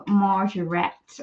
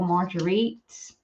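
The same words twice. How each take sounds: First: Marguerite as "mar-zhuh-RET"; unsure pronunciation. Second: Marguerite as "mar-juh-REET", slow and questioning; unsure pronunciation. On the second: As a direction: say Marguerite with a hard j and "-eet", rising. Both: Real, not acted. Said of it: "my pronunciation is a bit rubbish".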